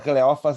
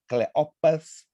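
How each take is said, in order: First: The name is said in its Portuguese form. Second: The name is said in its Greek form. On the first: "é a forma aportuguesada" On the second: "é a forma grega"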